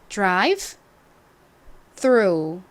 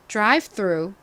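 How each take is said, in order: First: The phrase is said slowly and deliberately. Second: The phrase is said at a normal speed.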